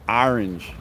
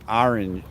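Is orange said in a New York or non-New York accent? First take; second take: New York; New York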